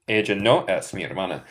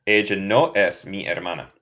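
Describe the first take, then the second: No difference in how they are said.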